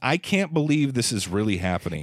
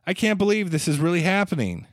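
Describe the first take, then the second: First: It is said in the speaker's own delivery. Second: It imitates the actor's delivery of the line.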